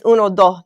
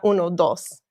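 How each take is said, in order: First: The word endings are clipped short. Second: The word endings are fully pronounced.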